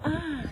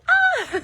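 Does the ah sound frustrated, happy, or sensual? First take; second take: sensual; happy. First: It sounds like a sensual sigh. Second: It sounds like a happy exclamation.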